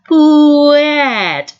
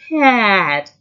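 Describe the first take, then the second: First: The word is sounded out slowly, sound by sound. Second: The sounds are run together quickly.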